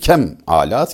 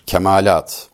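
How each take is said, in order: First: It is split into two parts with a break. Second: It is said as one unbroken word. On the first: It means bad tools. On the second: It means perfections or maturity.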